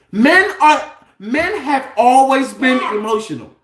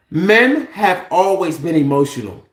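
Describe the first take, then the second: First: Raised, heated voice on emotional; getting worked up and loud; too loud. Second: Said in the usual way. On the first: Real, not acted. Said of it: "You're too loud". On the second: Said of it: "Let me calm down".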